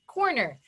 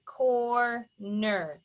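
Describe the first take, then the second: First: Said in the usual way. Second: CORNER broken into COR, pause, NER; slow two-beat "cor-ner"; pounded syllables. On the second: Shown as a demonstration. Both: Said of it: "Let's pound it out".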